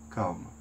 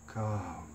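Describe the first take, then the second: Both takes have the same delivery.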